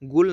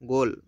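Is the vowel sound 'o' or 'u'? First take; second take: u; o. First: The vowel is a 'u' sound. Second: The vowel is an 'o' sound. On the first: The speaker calls it wrong. "गुल नहीं पढ़ा जाता" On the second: The speaker calls it right.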